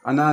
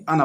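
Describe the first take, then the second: First: अना said long, the way not to read it; wrong reading. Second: अना read short and plain; correct reading. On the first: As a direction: show अना as the mistake. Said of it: "अना नहीं". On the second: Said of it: "अना पढ़ेंगे". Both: Shown as a demonstration.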